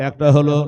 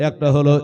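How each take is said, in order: No difference in how they are said.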